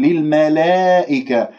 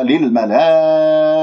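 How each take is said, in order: First: "للملائكة" with the long aa bent towards ee; "للملائكة" recited with a slanted, thin alif; tilted alif. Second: Chanted "للملائكة" with a very long laa before the hamza; slow recited "للملائكة", long madd then crisp hamza; obligatory connected madd. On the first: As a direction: show the error: front the alif of "للملائكة" into an eh sound. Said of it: "لا تمل صوت الألف". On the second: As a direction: stretch the aa of "للملائكة" on a steady held note. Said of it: "هكذا مد واجب متصل". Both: Shown as a demonstration.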